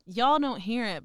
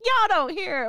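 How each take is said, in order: First: Said in the usual way. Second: Playful mock Texan accent, "Y'all" pitched up high. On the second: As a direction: show off your Texan accent on "Y'all don't hear it", a lot higher. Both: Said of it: "And I sound so Texan being like".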